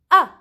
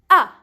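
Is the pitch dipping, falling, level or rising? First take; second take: falling; falling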